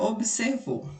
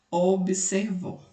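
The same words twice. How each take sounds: First: Said in the usual way. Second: "observou" slowly split into its syllables. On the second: Shown as a demonstration. ("observou" devagar, sílaba por sílaba) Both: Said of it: "Nós separamos a sílaba".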